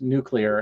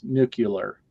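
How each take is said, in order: First: The word is said as nu-clee-ar. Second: The word is said as nu-cu-lar. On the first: The speaker calls it right. "it is in fact nuclear" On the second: The speaker calls it wrong. "and not nuclear"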